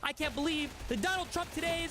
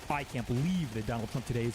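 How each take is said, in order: First: The voice is pitched high and sounds upset. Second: The voice is pitched low and sounds calm. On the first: "Rather than" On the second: "getting upset but keeping my voice down here"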